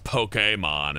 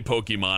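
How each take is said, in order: First: The e is said as an accented é vowel. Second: The e is said as a plain, unaccented vowel. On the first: The speaker calls it right. "Do you see the little uh, notch over the E? It's Pokemon" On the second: The speaker calls it wrong. "I used to say Pokemon"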